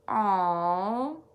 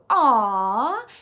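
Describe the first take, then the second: First: It sounds sad and sympathetic. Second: It sounds warm and touched. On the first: The speaker feels sorry about something bad. "if you uh, see something sad, you can say" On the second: The speaker feels loved or finds something sweet. "If you're feeling very cared for"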